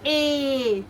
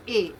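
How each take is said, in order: First: "A" stretched out as a long ayy; long, held vowel on "A"; over-long A. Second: "A" as a brief, lower ay; quick, plain vowel on "A"; short A. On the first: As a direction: drag out "A" as the mistake. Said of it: "You don't say A". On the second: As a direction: say "A" short, without stretching. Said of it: "A is a short sound". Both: Shown as a demonstration.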